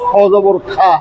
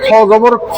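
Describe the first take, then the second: First: The final vowel is a clear 'aa'. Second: The final vowel is not a clear 'aa'. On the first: The speaker calls it wrong. "পড়া উচিত ছিল খ জবর খা" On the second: The speaker calls it right. "কিন্তু খা পড়ি নেই"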